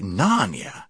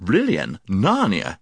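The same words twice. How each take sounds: First: Careless. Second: Offhand, dismissive tone; careless. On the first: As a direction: repeat it with idle puzzlement. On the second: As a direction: toss the names aside. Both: A narrator's reading. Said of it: "he said carelessly".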